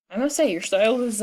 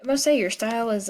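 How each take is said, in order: First: Voice cracking. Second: Said in the usual way. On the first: Real, not acted. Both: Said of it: "That was a weird voice change".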